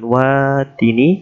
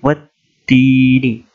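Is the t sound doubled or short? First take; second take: short; doubled. First: The t sound is short and single. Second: The t sound is held and doubled. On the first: The speaker calls it wrong. "bukan wadini" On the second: The speaker calls it right. "di sini ada tasjid"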